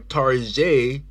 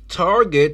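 First: It is said with a mock French pronunciation. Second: It is said with a plain English pronunciation.

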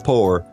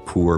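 First: The vowel sounds like 'oh', as in pour. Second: The vowel sounds like 'ooh', as in moor. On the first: "some people will say poor" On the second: "More like ooh sound"

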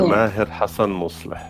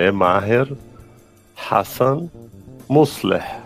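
First: It is said with an Arabic accent. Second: It is said with a Brazilian Portuguese accent.

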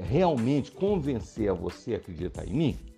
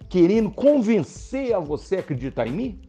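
First: It is said as flat words, without attitude. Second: It is said with convincing, positive attitude.

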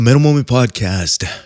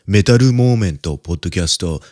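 First: It is said in a plain English accent. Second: It is said in a Japanese accent.

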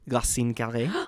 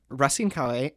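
First: It is said with a French accent. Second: It is said with an English accent.

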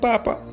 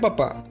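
First: The stress is on the first syllable. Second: The stress is on the last syllable. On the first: It refers to the Pope. "No es lo mismo decir papa que papá" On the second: It refers to a father. "No es lo mismo decir papa que papá"

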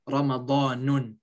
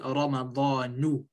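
First: The word ends with an added n sound. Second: The word ends on a short u vowel. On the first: The speaker calls it wrong. "You do not say Ramadanun" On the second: The speaker calls it right. "If you want to say completely, say Ramadanu"

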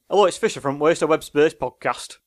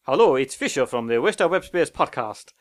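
First: It has a Lancashire accent. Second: It has a sub-Saharan African accent.

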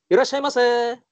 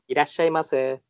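First: It is said in a lively shop clerk voice. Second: It is said in a plain, normal voice.

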